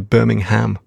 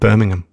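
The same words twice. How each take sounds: First: It is pronounced the American way. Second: It is pronounced the British way. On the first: "Americans, don't they? Say Birmingham" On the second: "instead of Birmingham"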